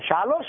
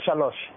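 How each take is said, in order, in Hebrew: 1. המבטא על ההברה האחרונה. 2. המבטא על ההברה הראשונה. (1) "מלרע" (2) "מלעיל"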